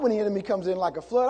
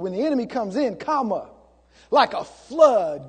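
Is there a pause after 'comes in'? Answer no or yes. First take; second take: no; yes. First: It runs on without a pause after 'in'. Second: There is a pause after 'in'. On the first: The enemy arrives like a flood. The speaker calls it wrong. "Not when the enemy comes in like a flood" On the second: The standard God raises against the enemy is like a flood. The speaker calls it right. "I put a little comma right there"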